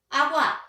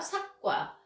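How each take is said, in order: First: The first consonant is dropped: agwa. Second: An extra k is added: sakgwa. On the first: A sound is left out. "기억을 생략하는 거예요" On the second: A sound that was not there is added. "기역 음을 첨가해서 사용하는"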